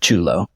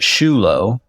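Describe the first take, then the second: First: The name begins with a hard 'ch' sound. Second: The name begins with a soft 'sh' sound. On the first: This is the more Italian way, used since marrying. "So now I pronounce it Chulo" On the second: This is how the family used to say it. "actually used to pronounce it Shulo"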